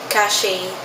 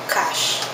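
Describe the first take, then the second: First: The final E is sounded as a second syllable. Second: The final E is silent, one syllable. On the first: Some other people say it this way. "May iba" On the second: This is the pronunciation the speaker knows. "Silent E"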